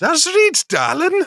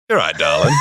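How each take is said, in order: First: Hammed-up high Durham voice; Durham accent. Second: Yorkshire bloke calling out; Yorkshire accent. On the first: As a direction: squeak it out in a mock Durham accent. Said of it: "trying to do it, no run up". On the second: Acted. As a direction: bellow it in a broad Yorkshire voice. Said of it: "that's Yorkshire".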